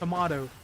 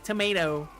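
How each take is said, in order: First: It is said with tall, stressed British vowels. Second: It is said with a plain American accent. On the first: "the A, and the O are very emphasized" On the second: "instead of saying tomato"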